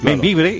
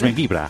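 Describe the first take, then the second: First: The name ends with an 'e' sound. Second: The name ends with an 'a' sound. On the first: "poblaciones españolas que se pronuncian diferente en catalán" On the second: "Membibre es membibra"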